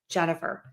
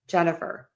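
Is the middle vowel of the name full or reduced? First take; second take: reduced; reduced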